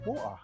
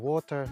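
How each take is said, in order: First: The T sound is dropped. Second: The T sound is soft.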